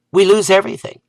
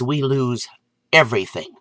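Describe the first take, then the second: First: Repeated higher and punched; emphatic repeat. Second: Said in the usual way. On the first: Real, not acted. Warning friends about bees, emphatic repeat. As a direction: hammer it home the second time.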